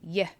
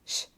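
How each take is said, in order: First: It is a soft y sound. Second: It is a hushing sh sound. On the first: "So the sound it makes is y" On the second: "especially in Argentina and Uruguay, you may hear it pronounced sh"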